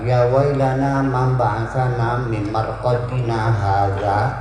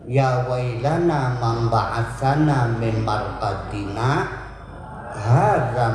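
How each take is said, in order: First: Marqadina runs straight into hadza. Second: There is a brief stop after marqadina. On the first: The word 'this' describes our sleep, reversing the meaning. The speaker calls it wrong. "Kalau dibacanya langsung maknanya berubah" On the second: Two different parties are speaking these words. The speaker calls it right. "sakta itu bacanya man, tapi tidak bernafas. Jadi bacanya gini"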